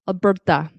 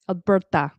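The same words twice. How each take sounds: First: The T is made with a tense tongue. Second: The T is made with a tense tongue.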